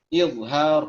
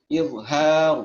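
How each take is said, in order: Both takes have the same delivery.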